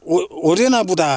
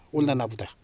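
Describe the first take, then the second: First: The verb is said as oryeona, the standard form. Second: The verb is said as ollana, the dialect form.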